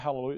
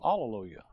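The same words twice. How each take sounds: First: The word begins with an H sound. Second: The word begins with a vowel, no H. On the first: This is the familiar form, not the Bible's. The speaker calls it wrong. "it doesn't say" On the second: This is the form found in the Bible. The speaker calls it right. "no H"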